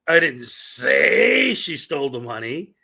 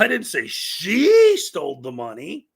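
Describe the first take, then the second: First: The word 'say' carries the main stress. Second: The word 'she' carries the main stress. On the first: Those words were never spoken aloud. "which means that those words never came out of my" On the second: Someone stole it, but not necessarily her. "I didn't say it was her"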